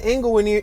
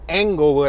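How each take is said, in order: First: The name begins with an 'ing' sound. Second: The name begins with an 'eng' sound. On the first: It could be taken for a different place. "if I say Inglewood" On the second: It shows the name is spelled with E. "I always gotta say Engle"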